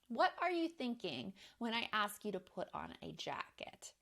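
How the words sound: It sounds genuinely curious and open.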